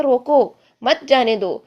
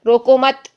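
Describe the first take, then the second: First: روکو with a fall and a stop, then مت جانے دو, slow; pause after roko. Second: روکو مت stressed, louder, stopping after مت; pause after mat. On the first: Teacher repeating the first reading: روکو, pause, مت جانے دو. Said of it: "وہاں پہ سٹاپ لیا". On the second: Teacher showing the second reading: روکو مت, then a stop. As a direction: say روکو مت together and stop there. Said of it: "آگے جا کے سٹاپ کر لیں". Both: Shown as a demonstration.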